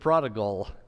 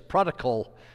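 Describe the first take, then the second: First: The last syllable starts with a g sound. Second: The last syllable starts with a k sound. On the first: The speaker calls it right. "instead of" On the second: The speaker calls it wrong. "I always pronounce it with a C"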